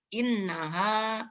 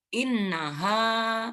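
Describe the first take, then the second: First: The final vowel is said short. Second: The final vowel is held long. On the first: "ini pendek" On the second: "ada alif mati, maka haknya dibaca panjang"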